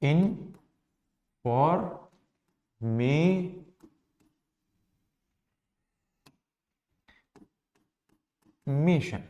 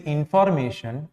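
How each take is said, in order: First: इन, फॉर, मे, शन with long gaps; very slow information, each syllable on its own. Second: Said in the usual way. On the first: Shown as a demonstration. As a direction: break information into separate syllables. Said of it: "इसमें कितने syllable हो जाएंगे". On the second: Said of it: "अगर हम एक word लिख लें".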